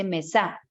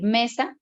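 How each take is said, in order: First: "mesa" wrongly stressed on the final SA; stress on last syllable. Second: "mesa" stressed on ME, the usual Spanish way; stress on first syllable. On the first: Teacher showing how not to say it, "mesa" stressed on SA. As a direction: shift the weight of "mesa" to its ending, me-SÁ. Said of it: "sabemos que no se dice". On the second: Teacher giving the correct word accent, "mesa" stressed on ME. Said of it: "nosotros para decir mesa". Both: Shown as a demonstration.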